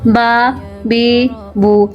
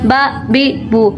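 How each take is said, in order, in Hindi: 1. स्वर बीच की लंबाई के होते हैं। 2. स्वर अचानक झटके से छोटे काटे जाते हैं। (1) "बल्कि दरमियानी हरकत रखनी है" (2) "ना ज़्यादा झटका देना है ... ना ऐसे पढ़ना"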